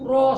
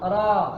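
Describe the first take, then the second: First: The lips push forward on the vowel. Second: The mouth stays open on the vowel. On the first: The speaker calls it wrong. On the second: The speaker calls it right.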